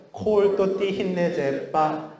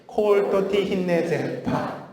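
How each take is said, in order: First: Slow, high, bouncy staccato. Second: Even more bouncing, high, slow syllables; bouncier staccato. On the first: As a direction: pop each syllable like a tap. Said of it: "따라해볼까요?". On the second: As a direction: make every syllable spring off the tongue. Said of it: "다시 더 톡톡 튀게". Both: Shown as a demonstration.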